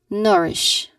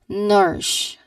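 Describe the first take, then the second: No difference in how they are said.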